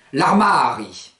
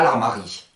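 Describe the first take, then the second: First: L'armari stressed on a long MA; accent tonique marqué. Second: L'armari stressed on final RI; accent mal placé. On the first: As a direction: lean on and stretch MA in l'armari. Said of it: "l'accent tonique tombe dessus". (« l'armari » accentué sur MA, allongé) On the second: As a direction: push the stress to the end: armaRI. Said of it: "et pas l'armari". (« l'armari » accentué sur RI) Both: Shown as a demonstration.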